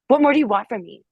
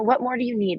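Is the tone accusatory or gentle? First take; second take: accusatory; gentle. First: It sounds accusatory and confrontational. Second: It sounds gentle and open.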